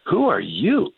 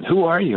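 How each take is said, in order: First: High, rising startled question; a stunned soldier calling down from the tank; surprised soldier. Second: Very high, falling amazed question; a soldier repeating himself in disbelief; surprised soldier. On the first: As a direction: pitch jumps high on WHO as a startled, lightly voiced question. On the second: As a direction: pitch leaps high on WHO, then falls in lightly voiced astonishment. Tank soldier repeats his question. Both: Retold or imitated.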